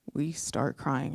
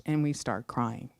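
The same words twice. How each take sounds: First: Slow, hushed whisper. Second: Said in the usual way. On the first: Real, not acted. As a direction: drop to a slow whisper, choked up.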